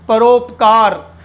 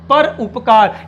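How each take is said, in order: First: It is said smoothly with no break. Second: There is a stop between the two parts.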